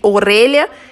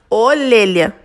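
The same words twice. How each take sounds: First: The word is said with an r sound. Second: The word is said with an l sound. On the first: This is the standard way to say it. "Em vez de orelha" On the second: This is how the character talks. "ele troca o R pelo L"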